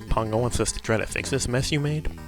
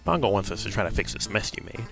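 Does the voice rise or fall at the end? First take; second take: rise; fall. First: It ends rising, like a question. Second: It ends falling, like a statement.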